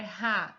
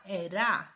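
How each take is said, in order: First: "ra" com o R fraco, a pronúncia errada; ra errado. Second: "ra" com o R forte, a pronúncia certa. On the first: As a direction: diga "ra" com o R leve. ("ra" pronunciado com R brando) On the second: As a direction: corrija e diga "ra" com R forte. ("ra" pronunciado com R forte) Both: Shown as a demonstration. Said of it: "Não é ra".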